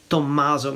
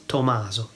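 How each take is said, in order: First: Tommaso with a doubled M, Italian style; Italian Tommaso, M held long; Italian pronunciation. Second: Tommaso with a single, short M; anglicised Tommaso, no double M; non-Italian pronunciation. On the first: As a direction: say Tommaso as "tom-MAH-zo". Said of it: "We would say it". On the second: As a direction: say Tommaso as an English speaker would, "to-MAH-so". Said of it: "not Tommaso". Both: Shown as a demonstration.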